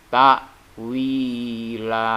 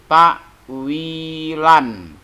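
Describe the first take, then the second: First: The word ends with a long a sound. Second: The word ends with an n sound. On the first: The reader stops at this word. "Kalau kita wakofkan, kita berhentikan, maka dia menjadi takwila" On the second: This is the written form, read without stopping. "tulisan di situ takwilan"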